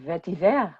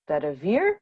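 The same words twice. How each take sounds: First: The word is pronounced in a French way. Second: The word is pronounced in a plain English way.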